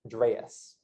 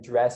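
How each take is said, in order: First: The vowel sounds like a Southern US accent. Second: The vowel sounds like a non-Southern accent.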